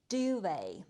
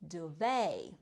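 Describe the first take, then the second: First: It is said with a British pronunciation. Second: It is said with an American pronunciation.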